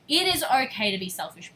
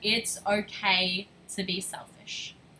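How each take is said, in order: First: It is said louder. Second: It is said at normal volume.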